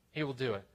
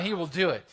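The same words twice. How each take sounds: First: Hushed assurance. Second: HE WILL DO IT stated firmly, falling at the end; firm assurance. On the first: Preacher lets the promise sink in, hushed assurance. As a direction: let "he will do it" drop softly and settle. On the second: Preacher promises congregation answered prayer, firm assurance. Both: Real, not acted.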